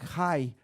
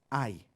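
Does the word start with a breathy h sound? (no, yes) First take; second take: yes; no. First: The word starts with a breathy h sound. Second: The word starts directly with the vowel. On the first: The speaker calls it wrong. "Algunos dicen Jai" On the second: The speaker calls it right. "la H es muda, entonces es Ai"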